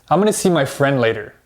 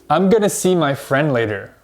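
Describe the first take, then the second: First: Going to is reduced even further, very quickly. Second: Going to is reduced to gonna. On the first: "But native speakers actually say this" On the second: "if you've been studying English for a little while, you might say this"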